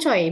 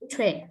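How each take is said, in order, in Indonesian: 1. Namanya diucapkan dengan vokal 'oy'. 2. Namanya diucapkan dengan vokal 'wé'. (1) "bukan Choi bacanya" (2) "tapi Chue"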